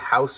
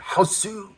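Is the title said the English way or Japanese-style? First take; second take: English; Japanese-style. First: The title is said as the plain English word. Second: The title is said Japanese-style with a final vowel.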